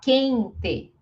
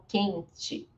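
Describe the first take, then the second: First: The final vowel sounds like 'eh'. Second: The final vowel sounds like 'ee'. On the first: Some regions speak this way. "Vão falar quente" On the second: The speaker's own region speaks this way. "e não quente"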